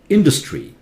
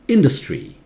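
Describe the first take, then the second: Both takes have the same delivery.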